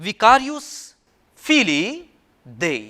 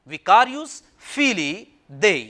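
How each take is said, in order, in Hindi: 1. अंत दो शब्दों में है, 'feelee day'। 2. अंत दो शब्दों में है, 'feelee day'।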